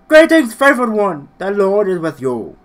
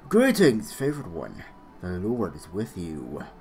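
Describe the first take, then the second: First: It is yelled loudly. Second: It is said at a normal volume.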